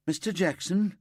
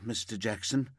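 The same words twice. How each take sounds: First: High, louder call of his name. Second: Said in the usual way. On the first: Acted. Called out vs said firmly.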